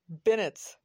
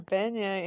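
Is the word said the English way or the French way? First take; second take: English; French. First: The word is said with English-style sounds. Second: The word is said with French-style sounds. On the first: This is how locals say it. "those things are pronounced Bennett's" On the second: This is how it is said in France. "it is beignet in French"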